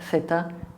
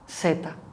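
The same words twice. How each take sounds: First: The first sound is a lisped th sound. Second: The first sound is a hissing s sound. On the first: This is how it is said in Peninsular Spain. "in the Peninsular Spanish would be th" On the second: This is how it is said in Latin America and parts of Andalusia. "in some parts of Andalusia it will be pronounced like S"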